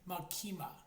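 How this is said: The name is said with a Japanese pronunciation. The speaker calls it right. "the Japanese characters say Makima. That's how they pronounce it"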